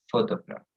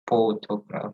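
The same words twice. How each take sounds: First: Photograph with F, fo-to-graph; right pronunciation. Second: Photograph with a P sound, not F; wrong pronunciation. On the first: Teacher models the right way: photograph with an F. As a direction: say photograph starting on F. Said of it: "but photograph". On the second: Teacher shows the wrong way: photograph with a P. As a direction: say photograph as p-hotograph. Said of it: "So it's not". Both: Shown as a demonstration.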